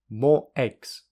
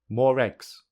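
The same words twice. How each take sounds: First: The words are said with no r between them. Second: An r sound joins the two words together. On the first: "Firstly without linking" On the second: "secondly with linking"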